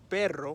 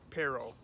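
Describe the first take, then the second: First: It is said with a Spanish pronunciation. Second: It is said with an English accent. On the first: The speaker calls it right. "the Spanish word" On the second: The speaker calls it wrong. "if I try to use my accent right now"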